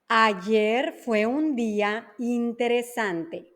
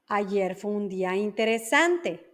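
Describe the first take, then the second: First: The sentence is spoken slowly. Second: The sentence is spoken at normal speed. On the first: "La primera lenta" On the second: "la segunda va a ser una velocidad normal"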